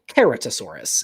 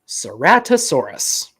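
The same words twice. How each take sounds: First: The name is said in a Latin style. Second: The name is said in an English style.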